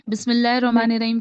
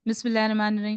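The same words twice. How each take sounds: First: The first word begins with a clear B sound. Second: The first word begins with an M-like sound. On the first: The speaker calls it right. "बिस्मिल्लाहिर्रहमानिर्रहीम की जगह" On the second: The speaker calls it wrong. "ऐसा लगता है कि"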